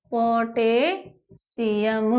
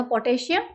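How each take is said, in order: First: potassium stretched out syllable by syllable; slow dictation. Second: Said in the usual way. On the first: Shown as a demonstration. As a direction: draw out potassium as if writing it. Repeats it slowly while writing. (Potassium को धीरे-धीरे, खींचकर बोलना)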